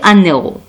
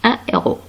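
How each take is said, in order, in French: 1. Un son n fait la liaison avec le deuxième mot. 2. Aucun son de liaison ne vient avant le deuxième mot. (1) "on ne peut pas dire un héros" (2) "Ici H sans liaison"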